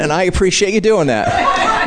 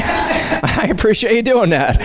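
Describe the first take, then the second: First: Said in the usual way. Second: Slower, laughing through the thanks; chuckling repeated thanks. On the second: Shown as a demonstration. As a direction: say it again, amused and emphatic.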